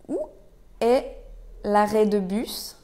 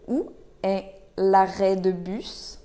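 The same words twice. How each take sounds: First: Word by word. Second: Said in the usual way. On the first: Shown as a demonstration. Teacher breaks question down for learners.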